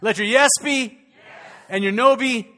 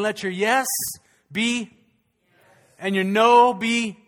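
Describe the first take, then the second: First: Yes and no are equally loud. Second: The word no is louder than yes.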